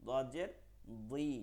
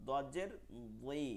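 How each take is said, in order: The two takes are said the same way.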